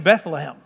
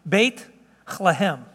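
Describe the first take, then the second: First: The T and H merge into one sound. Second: The T and H are said as separate sounds. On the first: "We put the T and the H together" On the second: "Let me say it this way"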